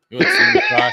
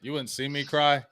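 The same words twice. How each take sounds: First: Mock falsetto cry. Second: Said in the usual way. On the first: Joking to his co-host about crying, in a loud laughing falsetto. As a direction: shoot way up into a squeaky falsetto, laughing through it.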